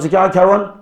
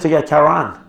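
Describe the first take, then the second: First: The speaker's own accent, with a short final vowel. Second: The other accent, with a long final vowel.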